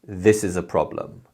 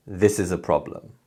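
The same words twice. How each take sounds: First: "This" and "prob-" in "problem" hit harder, the rest weak; stress on this and problem. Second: "This" strong, "is a" weak, "prob-" in "problem" stressed; English stress timing on "This" and "prob-". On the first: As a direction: lean on "This", then on the first syllable of "problem". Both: Shown as a demonstration. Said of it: "So we say".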